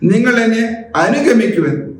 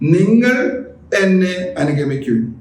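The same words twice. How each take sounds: First: The stress falls on the third word. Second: The stress falls on the first word. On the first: Walk behind me, not in front. "ഈ മൂന്നാമത്തെ പദം എടുക്കുകയാണെങ്കിൽ" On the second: It is you and no one else. "മറ്റാരുമല്ലെന്നർത്ഥം"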